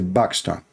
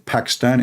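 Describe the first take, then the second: First: The word begins with a B sound. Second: The word begins with a P sound. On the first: This is the Arabic pronunciation. "In Arabic we say Pakistan. We don't have P in Arabic" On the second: This is the English pronunciation. "Like in English you say Pakistan"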